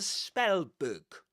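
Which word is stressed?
spell. The stress falls on the word spell. The speaker calls it right. "It's a compound noun"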